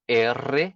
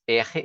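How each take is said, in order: First: "R" said slowly as "erre" with a rolled middle; Spanish trilled R. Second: "R" said as "EH-he", breathy back-of-throat middle; Portuguese guttural R. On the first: Teacher naming the one Spanish pronunciation, R as trilled erre. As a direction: draw out the letter name R as Spanish "EH-rrre". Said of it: "Que é o trill". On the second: Teacher showing what it no longer is, R as Portuguese "erre" with h sound. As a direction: say the letter name R with an h sound, not rolled. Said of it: "não é mais R". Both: Shown as a demonstration.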